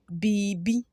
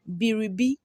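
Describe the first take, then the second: First: The r sound is dropped entirely. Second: The r sound is pronounced in full. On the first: "We omit the R" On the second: "That is how we write it"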